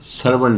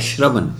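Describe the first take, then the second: First: The word begins with a plain s sound. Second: The word begins with an sh sound. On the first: The speaker calls it wrong. "ਸਰਵਣ ਨਹੀਂ ਕਹਿਣਾ" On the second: The speaker calls it right. "ਸੱਸੇ ਦੇ ਪੈਰ ਵਿੱਚ ਬਿੰਦੀ ਬੋਲਦੀ ਹੈ ਅਤੇ ਪੈਰ ਚ ਰਾਰਾ, ਤੋ ਹੈ ਸ਼ਰਵਣ"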